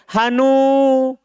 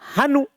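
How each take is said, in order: First: The final vowel is held long. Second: The final vowel is kept short. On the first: The speaker calls it wrong. "tidak dibaca hanu" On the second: The speaker calls it right. "Dia dihilangkan alif waw ya. Itu paling fasih"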